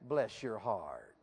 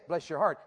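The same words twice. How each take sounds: First: It is said in a strong Southern accent. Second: It is said in a plain, neutral accent. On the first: The speaker calls it right. "You got to put a little southern in it" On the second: The speaker calls it wrong. "you don't just say"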